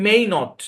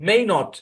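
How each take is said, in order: No difference in how they are said.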